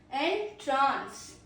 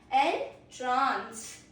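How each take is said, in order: First: The stress is on the second syllable. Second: The same.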